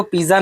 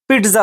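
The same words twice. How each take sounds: First: "पिज्जा" with a plain z, pee-za; everyday mispronunciation. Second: "पिज्जा" with a t before z, PIT-za; correct pronunciation. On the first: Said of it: "actually वो पिज्जा नहीं होता है". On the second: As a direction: put a crisp t into "पिज्जा": peet-za. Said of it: "actually वो आपका". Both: Shown as a demonstration.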